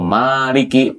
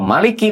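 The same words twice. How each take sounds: First: The first vowel is held long. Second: The first vowel is kept short. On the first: It means owner or ruler. "pemilik atau penguasa" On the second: It means king. "kalau Maliki pendek itu raja"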